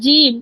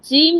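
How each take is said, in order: First: The first consonant is plain and unaspirated. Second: The first consonant is breathy and aspirated. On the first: The speaker calls it right. "এটা ঝ না, এটা জ" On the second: The speaker calls it wrong. "জিম না"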